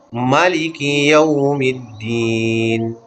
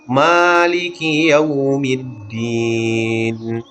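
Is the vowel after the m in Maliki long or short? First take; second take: short; long. First: The vowel after the m is kept short. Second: The vowel after the m is held long. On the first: It means the one who reigns as king. "bisa juga dipendekkan" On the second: It means the one who possesses. "Mimnya bisa dibaca dengan panjang dua harakat"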